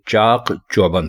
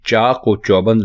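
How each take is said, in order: First: No linking sound comes between the two words. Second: A linking 'o' sound joins the two words. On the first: The speaker calls it right. "बल्कि ये चाक चौबंद है" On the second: The speaker calls it wrong. "ये चाक और चौबंद नहीं है"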